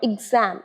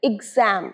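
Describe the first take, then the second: The two takes are said the same way.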